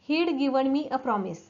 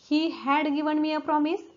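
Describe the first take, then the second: First: He had is squeezed into one short syllable. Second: He had is said as two full words.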